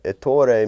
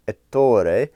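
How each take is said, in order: First: Said in the usual way. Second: Ettore in a careful Italian accent. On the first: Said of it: "I'm probably butchering it". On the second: Shown as a demonstration. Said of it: "trying to do my best Italian accent".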